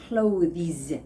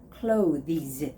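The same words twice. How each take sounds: No difference in how they are said.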